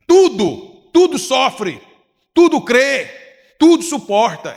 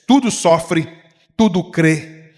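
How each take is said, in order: First: Tudo hammered higher and louder on each phrase; repeating the verse to the congregation, higher and louder on each tudo; emphatic repeat. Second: Said in the usual way. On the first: Acted. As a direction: preach it again, punching every tudo.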